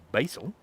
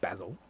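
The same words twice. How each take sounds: First: It is said the American way. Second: It is said the speaker's local British way.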